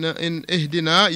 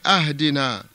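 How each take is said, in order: First: The first vowel is an 'i' sound. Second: The first vowel is an 'a' sound. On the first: The speaker calls it right. "In ihdina" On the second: The speaker calls it wrong. "You're putting a fatha on that hamza"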